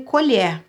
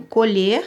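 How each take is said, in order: First: Colher with open e, like the spoon ko-LHÉR. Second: Colher with closed e, like the verb ko-LHER. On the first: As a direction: say colher as /koʎɛr/, the noun spoon. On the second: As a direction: say colher as /koʎe/, the verb to pick. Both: Shown as a demonstration. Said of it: "eu pronuncio colher e nesse caso eu pronuncio".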